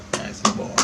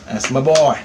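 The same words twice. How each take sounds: First: Soft whispered praise; hushed repeat of the praise from Mom. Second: Said in the usual way. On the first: Retold or imitated. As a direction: whisper it like a proud mother. Voicing Mom's praise, hushed.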